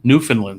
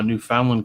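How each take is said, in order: First: It is pronounced differently from its spelling. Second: It is pronounced as it is spelled. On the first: The speaker calls it right. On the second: The speaker calls it wrong.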